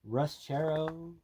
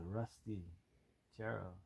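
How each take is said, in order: First: It is said in an enthusiastic, excited tone. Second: It is said in a flat, dismissive tone. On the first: The car is cool. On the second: The car is a rusty wreck.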